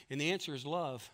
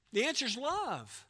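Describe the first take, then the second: First: Said in the usual way. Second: The answer is love said much higher, stress on love; emphatic repeat. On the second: Shown as a demonstration. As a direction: lift the repeat up high and land hard on love.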